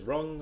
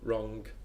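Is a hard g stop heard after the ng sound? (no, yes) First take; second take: no; yes. First: It ends in a plain ng, no g. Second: It ends in ng followed by a g.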